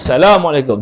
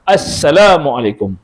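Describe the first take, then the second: First: The greeting begins directly with salam, no article. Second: The greeting begins with the article sound as. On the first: The speaker calls it wrong. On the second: The speaker calls it right. "mesti kalimah"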